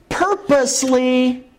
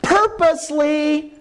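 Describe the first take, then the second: First: Purposely drawn out slow and high; stress on purposely. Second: "Purposely" very slow and much higher; stress on purposely. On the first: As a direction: stretch out "purposely" slowly, pitch lifted. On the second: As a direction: drag out "Purposely" up high. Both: Shown as a demonstration. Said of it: "That's the word".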